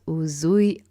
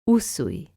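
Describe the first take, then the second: First: The middle consonant is a buzzing Z sound. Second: The middle consonant is a hissing S sound. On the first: The speaker calls it wrong. "like Z" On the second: The speaker calls it right. "like S"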